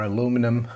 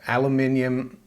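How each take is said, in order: First: It is said the American way, as aluminum. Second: It is said the British way, as aluminium.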